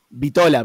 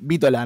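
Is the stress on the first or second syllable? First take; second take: second; first. First: The stress is on the second syllable. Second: The stress is on the first syllable. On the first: The speaker calls it wrong. "Yo pronuncié Vítola" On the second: The speaker calls it right. "Es con acento"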